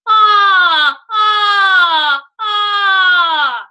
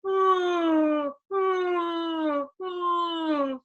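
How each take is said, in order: First: High, loud, ringing twangy ah; cutting twang on a held ah; twang, no nasality. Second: Higher nasal ah without ring; soft nasal ah; nasal, no twang. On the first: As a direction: sing the ah with lots of twang and none through the nose. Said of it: "I can have just twang". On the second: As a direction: send the ah through the nose but keep the twang out. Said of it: "nasality and no twang". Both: Shown as a demonstration.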